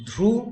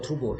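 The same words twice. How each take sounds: First: "ধ্রুব" broken into ধ্রু, pause, ব, first part pitched high; syllable split. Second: Said in the usual way. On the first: Shown as a demonstration. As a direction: raise ধ্রু in "Dhruv", then leave a gap before ব. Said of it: "সিলেবলে যদি ভাগ করে নিই". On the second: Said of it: "এটাকে যদি দল বিশ্লেষণ করি".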